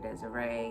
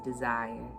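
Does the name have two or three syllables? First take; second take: three; two. First: The name ends in an extra "ay" syllable. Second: The name ends plainly like the word desire. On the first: The speaker calls it wrong. "I hear people mispronounce it all the time" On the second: The speaker calls it right. "to set the record straight. It is Desire"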